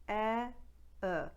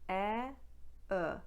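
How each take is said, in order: Both takes have the same delivery.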